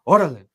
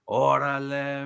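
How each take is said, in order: First: It sounds urgent and pushing. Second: It sounds agreeable and approving.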